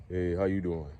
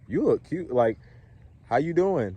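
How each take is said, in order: First: Low, soft greeting with falling pitch; down-talking. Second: Higher-pitched compliment and greeting; up-talking greeting. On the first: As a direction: let "how you doing" sink down low. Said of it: "the pitch goes down like that". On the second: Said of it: "Don't say it like that". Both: Shown as a demonstration.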